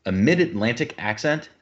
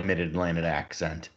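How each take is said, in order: First: Put-on old-timey radio mid-Atlantic accent; like an old radio announcer, mid-Atlantic. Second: Said in the usual way. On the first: Shown as a demonstration. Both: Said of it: "sounds kind of like this".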